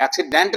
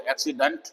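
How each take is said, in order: First: एक्सीडेंट with a full clear E in the last syllable; the mistaken pronunciation of एक्सीडेंट; wrong way. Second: एक्सीडेंट with a weak schwa in the last syllable, whispered; the correct एक्सीडेंट with a schwa ending; right way. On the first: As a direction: stress एक्सीडेंट evenly, full vowel at the end. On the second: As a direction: say एक्सीडेंट as ak-si-dunt, the end reduced to schwa. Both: Shown as a demonstration. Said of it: "एक्सीडेंट नहीं बोलते".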